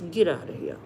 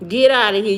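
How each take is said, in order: First: Muttered dismissal. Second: Loud dismissal. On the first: Brushing off a caller's claim, muttered. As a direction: Get softly thrown away, falling. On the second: Telling the caller about his UK wife to get out, loud. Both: Real, not acted.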